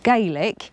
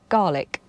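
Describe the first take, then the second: First: The first syllable sounds like 'gay'. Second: The first syllable sounds like 'gar'.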